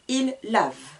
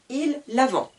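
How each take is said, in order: First: The word stops right on the V sound. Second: A nasal vowel and T are sounded after V. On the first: The speaker calls it right. "Je m'arrête sur le V" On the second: The speaker calls it wrong. "Je n'entends pas le N et le T. Je ne dis pas"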